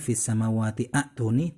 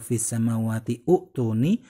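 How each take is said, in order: First: An 'a' vowel is sounded before 'tuni'. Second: A 'u' vowel is sounded before 'tuni'.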